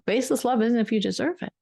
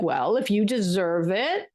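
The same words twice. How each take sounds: First: Said in the usual way. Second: Slow, grudging mock praise, said a little coolly; grudging conditional praise. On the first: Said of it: "We're talking about baseless love". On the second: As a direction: hand out the praise as if it must be earned. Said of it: "praise could also sound like".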